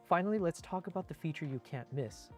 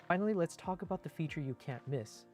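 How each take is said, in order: Both takes have the same delivery.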